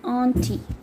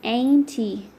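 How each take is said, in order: First: It is said in a British accent. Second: It is said in an American accent. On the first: "in British" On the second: "in American"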